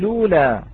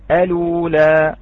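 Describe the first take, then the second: First: It begins directly with L, no initial vowel. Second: It begins with a glottal stop and vowel before L. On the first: "الابتداء باللام دون الهمزة" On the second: "الإتيان بهمزة الوصل"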